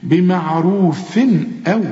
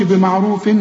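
First: Slow بمعروف أو with a clean n before the hamza, no hum; clear tanween. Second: Quicker بمعروف أ with a mistaken hum on the final n; wrong nasal hum. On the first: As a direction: pronounce the final n of بمعروف crisply, then أو. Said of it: "الهمزة من حروف الإظهار". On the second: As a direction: show the error of humming the tanween in بمعروف before أ. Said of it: "ما تقولش". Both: Shown as a demonstration.

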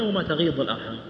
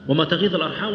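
First: تغيض said with a ض sound; تغيض with the dad variant; dad pronunciation. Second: تغيض said with a ظ sound; تغيض with the dha variant; dha pronunciation. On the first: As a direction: pronounce تغيض with ض. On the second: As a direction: pronounce تغيض with ظ. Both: Shown as a demonstration. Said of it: "ما يدري".

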